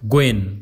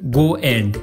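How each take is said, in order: First: The words blend into one reduced word. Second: Both words are said fully and separately.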